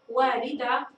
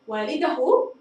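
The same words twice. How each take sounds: First: Said in the usual way. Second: والده ending in a clear hu, walidahu; ha voiced. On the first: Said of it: "أنا أريد أن أنطق الهاء الآن". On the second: Shown as a demonstration. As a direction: sound the final هاء of والده as hu. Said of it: "نطقت الهاء". (نطق والده بهاء مضمومة واضحة)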